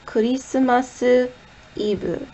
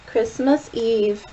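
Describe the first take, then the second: First: It is said with Japanese loanword pronunciation. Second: It is said with English pronunciation.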